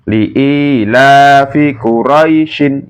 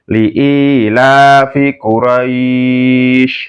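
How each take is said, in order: First: The word ends short, with a final -in. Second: The word ends drawn out, without the -in. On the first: The reader carries on without stopping. "dibaca pendek" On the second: The reader stops at this word. "dibaca panjang"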